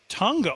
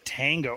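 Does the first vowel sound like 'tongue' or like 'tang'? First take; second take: tongue; tang. First: The first vowel sounds like the vowel in 'tongue'. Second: The first vowel sounds like the vowel in 'tang'. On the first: The speaker calls it right. "like with a tongue, like your tongue in your mouth" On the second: The speaker calls it wrong. "not tango"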